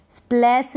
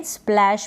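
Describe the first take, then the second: First: स्प्लैश ending in s, "splass"; wrong pronunciation. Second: Said in the usual way. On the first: Shown as a demonstration. Teacher shows what not to read, स्प्लैश as स्प्लैस. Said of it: "स्प्लैश नहीं पढ़ेंगे". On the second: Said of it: "स्प्लैश पढ़ेंगे".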